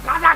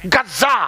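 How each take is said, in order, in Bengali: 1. "Gaza" নামের মাঝের z ধ্বনিটি হ্রস্ব। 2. "Gaza" নামের মাঝের z ধ্বনিটি দ্বিত্ব। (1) "গাজা কেন বলছেন?" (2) "জেড এ জেড জেড এ"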